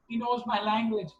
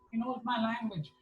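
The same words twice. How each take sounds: First: Higher, thrilled, but only a mild mock scream; overjoyed exclaim. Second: Higher, dropping much softer; joyful, softer repeat. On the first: Quoting a delighted Baba, higher and thrilled. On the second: Retold or imitated. Baba repeats it in hushed delight, higher. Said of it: "and he was so happy".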